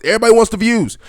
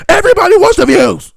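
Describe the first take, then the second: First: Raised, higher-pitched shouty emphasis; mock yelling. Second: Very high, full-blast screech; mock screaming. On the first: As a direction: start yelling to mock the screamers. Mocking screamers, building up. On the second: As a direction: scream it to parody attention seekers. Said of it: "So why are you screaming?".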